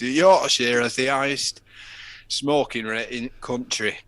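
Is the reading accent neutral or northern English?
northern. It is read in a broad northern English accent.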